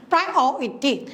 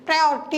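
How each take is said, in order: First: priority sounded out in separate syllables, the O standing out; syllable-by-syllable demo. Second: Said in the usual way. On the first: Shown as a demonstration. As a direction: pronounce priority syllable by syllable to find its stressed second syllable. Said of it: "pronounce ചെയ്ത് നോക്കും". (Priority അക്ഷരം പിരിച്ച്, രണ്ടാം സിലബിളിൽ ഊന്നി) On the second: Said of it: "എന്ന് പറയുമ്പോഴത്തേക്ക്".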